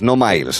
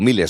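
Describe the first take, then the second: First: It is said the English way, like 'myles'. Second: It is said the Latin way, like 'mee-les'. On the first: The speaker calls it wrong. "no en inglés" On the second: The speaker calls it right. "Vamos a decirlo en latín"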